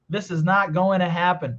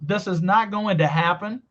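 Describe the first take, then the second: First: The 'to' in 'going to' sounds like 'na'. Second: The 'to' in 'going to' sounds like 'da'. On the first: "ela tirou o som de T e fez só com som de N, que é o mesmo que eu falo" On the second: "com som de D"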